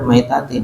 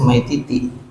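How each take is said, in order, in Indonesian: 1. Vokal kedua dari belakang adalah bunyi 'a'. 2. Vokal kedua dari belakang adalah bunyi 'i'. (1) "Nah ini benar" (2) "di atasnya"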